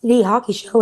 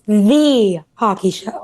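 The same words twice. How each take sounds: First: The word 'the' is unstressed and reduced. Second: The word 'the' carries strong emphasis. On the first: It is simply a show about hockey. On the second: It is the one definitive hockey show.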